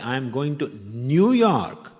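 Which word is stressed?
New York. The words "New York" are stressed. The destination is this city, not another. "means I'm not going to Chicago"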